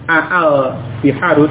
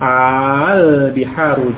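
First: The opening vowel is split by two glottal stops. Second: The opening vowel is one long drawn-out sound. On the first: The speaker calls it wrong. "tidak menjadi al biharu dengan dua hamzah aa, tidak seperti itu" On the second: The speaker calls it right. "menjadi satu dengan bacaan mat, dengan bacaan panjang"

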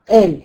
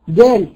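First: The word begins with a glottal stop. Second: The word begins with a hard g sound. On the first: "نطقها ايه؟ همزة" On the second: "في بعض البلدان ينطقوها جيم"

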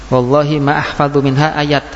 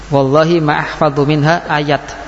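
Both takes have the same delivery.

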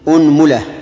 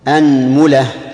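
First: The first vowel is a rounded 'u'. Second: The first vowel is an open 'a'. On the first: "ضم الهمزة" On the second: "فتح الهمزة"

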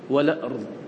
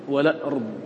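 The two takes are said the same way.

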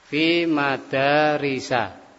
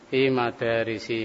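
First: The last word ends in an 'a' vowel. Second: The last word ends in an 'i' vowel. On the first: The speaker calls it right. "makanya fi madarisa" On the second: The speaker calls it wrong. "Masih salah juga"

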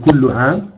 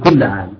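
First: The first word ends with a 'u' vowel. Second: The first word ends with an 'a' vowel. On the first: The speaker calls it wrong. "لا تقول كل عام" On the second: The speaker calls it right. "تقول كل عام"

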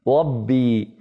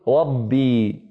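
First: The r is a lisped glide without tongue contact. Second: The r is a clear tongue-tip r. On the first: The speaker calls it wrong. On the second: The speaker calls it right.

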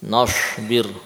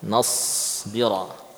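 First: The consonant after 'na' sounds like 'sh'. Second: The consonant after 'na' is a thick 's'. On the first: The speaker calls it wrong. "melafadzkan shad pada makhraj shin" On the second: The speaker calls it right. "muncullah huruf sad yang diinginkan"

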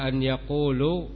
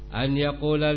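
First: The last word ends with a 'u' vowel. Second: The last word ends with an 'a' vowel. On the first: The speaker calls it wrong. "maka kalau dibaca an yaqulu, maka tampak kesalahannya" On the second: The speaker calls it right. "kalian harakati bahwa lamnya fathah"

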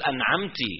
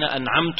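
First: The final t carries an i vowel. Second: The final t carries a u vowel. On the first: A female is the one who gave the favor. "صار تأنيث" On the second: The speaker is the one who gave the favor. "كضم تاي أنعمت"

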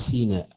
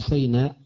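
First: The first syllable has no 'a' vowel. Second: The first syllable has an 'a' vowel. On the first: This is the reading of a named minority of reciters. "وقراءة نافع وأبي جعفر والبصريين" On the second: This is the reading of the majority. "قراءة الجمهور من طور سيناء بالفتح"

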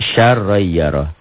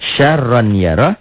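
First: The n sound merges into the next word. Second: The n sound is kept before the next word.

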